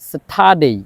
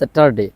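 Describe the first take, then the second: First: The r sound is left silent in the middle. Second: The r sound is pronounced in the middle. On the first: The speaker calls it right. "এটা হবে স্যাটারডে, অর্থাৎ আর এর পরে যে D আছে যার কারণে আর এর উচ্চারণটা হয় না" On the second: The speaker calls it wrong. "আমরা এতদিন বলতাম স্যাটারডে"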